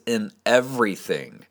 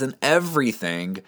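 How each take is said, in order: First: "In" leaned on, "everything" falling; stress on IN. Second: Said in the usual way. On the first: Shown as a demonstration. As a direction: hit the word "In" hard. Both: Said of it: "let me emphasize a couple words".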